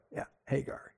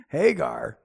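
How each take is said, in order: First: Yeah, Hagar whispered, much softer; knowing whisper. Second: Said in the usual way. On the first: Real, not acted. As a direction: breathe out Hagar like a secret aside. Repeats name, then whispers it.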